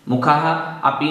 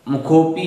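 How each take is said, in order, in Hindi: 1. यह दो अलग शब्दों की तरह बोला जाता है। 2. यह एक जुड़े हुए शब्द की तरह बोला जाता है। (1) "मुखाह अपी नहीं बोलना है" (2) "मुखोपी ही बोलना है"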